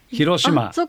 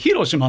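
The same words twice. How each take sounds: First: The pitch is high in the middle, then falls. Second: The pitch is high on the first mora, then falls. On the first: "これは中二高ですね" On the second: "頭だかでしたら例えば広島ね"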